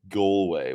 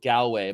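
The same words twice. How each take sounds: First: "Galway" said with a long o, like "GOAL-way"; the local way, "Galway" as "GOAL-way"; local pronunciation. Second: "Galway" said with a flat a, like "GAL-way"; the old way, "Galway" as "GAL-way"; old pronunciation. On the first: Host corrected by locals, says "GOAL-way". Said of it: "how they say it in ... the west coast of Ireland". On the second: Host recalls how he used to say Galway, "GAL-way". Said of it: "I used to call it Galway". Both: Shown as a demonstration.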